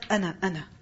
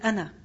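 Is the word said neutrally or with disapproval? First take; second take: disapproval; neutrally. First: It is said with a disapproving, displeased tone. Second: It is said plainly, as a neutral answer. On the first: This answer is not a proper way to identify yourself. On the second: The speaker identifies himself.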